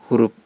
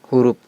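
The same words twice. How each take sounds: No difference in how they are said.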